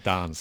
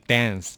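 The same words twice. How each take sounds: First: It is said in a British accent. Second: It is said in an American accent.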